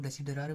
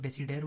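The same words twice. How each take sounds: First: डेसिडेरारे with both final syllables sounded; long variant pronunciation. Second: डेसिडेर with no final "-are" ending; short variant pronunciation. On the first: Teacher showing students the other Latin variant, full pronunciation. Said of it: "कुछ लोग डेसिडेरारे बोलते हैं". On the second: Teacher showing students one variant of a Latin word, short pronunciation. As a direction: say डेसिडेर, stopping after the "der" syllable. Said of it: "कुछ लोग डेसिडेर बोलते हैं". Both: Shown as a demonstration.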